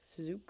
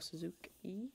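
First: The name ends without a final vowel sound. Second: The name ends with a final vowel sound. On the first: "I don't know if I'm pronouncing the E at the end" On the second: "I don't know if I'm pronouncing the E at the end"

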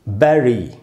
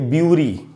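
First: The first vowel sounds like 'eh'. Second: The first vowel sounds like 'you'. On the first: The speaker calls it right. "इसका शुद्ध उच्चारण है बैरी" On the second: The speaker calls it wrong. "बहुत लोग तो इसको पढ़ेंगे ब्यूरी"

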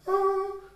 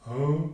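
First: The voice is pitched high. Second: The voice is pitched low. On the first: "to "oh,"" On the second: "her voice literally went from "oh""

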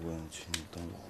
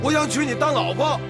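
First: It is mumbled quietly. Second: It is said loudly.

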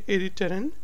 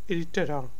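First: The final n sound is pronounced. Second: The final n sound is dropped. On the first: "Some people would say irriteren" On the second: "So N is silent in their voice"

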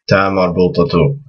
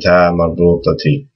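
First: The word ends with a t and u sound. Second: The word ends with a t and i sound. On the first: "if you're saying another word after it ... just connect it so it has the flow" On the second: "with the Kasrah"

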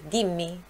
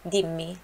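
The two takes are said the same way.

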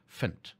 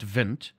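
First: The word begins with a hard F sound. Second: The word begins with a soft V sound. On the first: The speaker calls it right. "like a hard F" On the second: The speaker calls it wrong. "Not vind"

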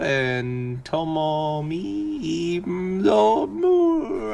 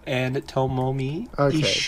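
First: The names are read slowly and carefully. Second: The names are read quickly and naturally.

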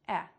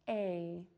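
First: The vowel is short and does not glide. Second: The vowel is long and glides closed. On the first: The speaker calls it wrong. "people make the sound too short, and therefore it would sound something like eh" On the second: The speaker calls it right. "To make this long vowel sound"

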